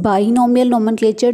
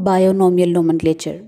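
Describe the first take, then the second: First: The word begins with the sound 'bi'. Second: The word begins with the sound 'bio'. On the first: The prefix means two. The speaker calls it right. "This is बाइनोमियल nomenclature" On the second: The prefix means life. The speaker calls it wrong. "Not बायोनोमियल nomenclature"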